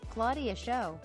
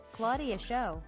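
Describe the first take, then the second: No difference in how they are said.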